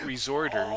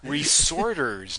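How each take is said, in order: First: The middle consonant sounds like 'z', as 'resort'. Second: The middle consonant sounds like 's', as 're-sorters'. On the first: People visiting a resort. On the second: People who sort things again. "Maybe we're reading it wrong"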